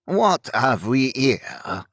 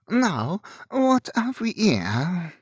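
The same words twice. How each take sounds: First: Put-on slow, grated French-accented robber; thick French accent. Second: Put-on higher, drawn-out French-accented robber. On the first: French-accented highwayman first confronts the carriage, grating and slow. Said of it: "low-pitched voice grated out in a thick French accent". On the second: Second French-accented robber looks into the carriage, higher and slow. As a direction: ask it slowly, lifted, in a French accent. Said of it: "Enage asked". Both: A narrator's reading.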